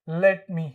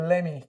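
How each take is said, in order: First: Both words are said separately and fully. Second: The words blend into one reduced word. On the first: "ऐसे से लेट मी ऐसा बोलते थे"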